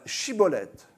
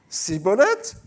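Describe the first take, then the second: First: The word begins with an 'sh' sound. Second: The word begins with an 's' sound. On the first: The speaker calls it right. "vous allez dire, euh, Chibolette" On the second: The speaker calls it wrong. "ne pouvaient pas prononcer le ch, alors, à chaque fois, ils disaient Cibolette"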